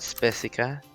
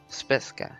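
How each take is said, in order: First: The name is said with three syllables. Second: The name is said with two syllables. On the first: The speaker calls it wrong. "It's not Spesica" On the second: The speaker calls it right.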